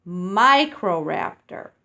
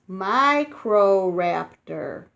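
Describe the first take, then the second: First: Microraptor said a bit slowly, clearly; careful pronunciation. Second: Microraptor said very slowly, MI-cro-RAP-tor; careful pronunciation. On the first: Teaching children the name again, clear and slow. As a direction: repeat Microraptor clearly for kids to copy. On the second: Teaching children a dinosaur name, very slow. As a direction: stretch Microraptor out syllable by syllable. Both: Shown as a demonstration. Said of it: "you say it like this".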